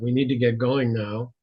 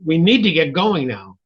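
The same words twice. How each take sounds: First: It is said flatly, with little energy. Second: It is said urgently, with agitated energy.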